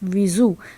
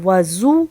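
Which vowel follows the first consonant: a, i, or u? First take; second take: i; a. First: The first vowel is an i sound. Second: The first vowel is an a sound. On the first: The vessel holding the water. "वाव के नीचे ज़ेर" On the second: The water used for washing. "वाव के ऊपर ज़बर"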